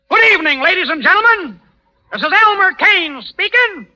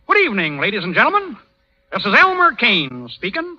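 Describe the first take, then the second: First: It is said loudly. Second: It is said quietly.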